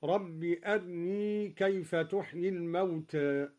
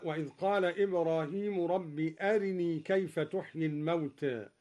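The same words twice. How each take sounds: First: أرني with a quick half vowel on a thin r; رب أرني, ra light and barely voweled; snatched thin ra. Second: Said in the usual way. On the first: Shown as a demonstration. Teacher demonstrating ikhtilas of ra. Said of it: "هكذا". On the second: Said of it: "باختلاس الراء مرققة".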